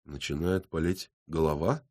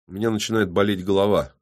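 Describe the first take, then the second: First: Quiet echo, rising on "голова"; questioning repeat. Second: Said in the usual way. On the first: A narrator's reading. Policeman checking the headache claim, questioning. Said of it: "переспросил Львов". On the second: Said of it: "ответил честно".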